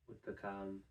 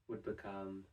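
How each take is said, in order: No difference in how they are said.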